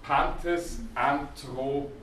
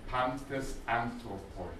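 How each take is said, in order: First: Pantes Anthropoi read out slowly, each syllable given its time, rising at the end; slow first reading. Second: Pantes Anthropoi said again, slower than normal and softer, falling to a close; softer repeat. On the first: Greek teacher to students, slow dictated reading. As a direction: sound out Pantes Anthropoi slowly for the class, voice lifting at the close. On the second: Teacher repeats the phrase to the class, soft and falling. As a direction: quietly repeat Pantes Anthropoi as a settled final version. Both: Shown as a demonstration.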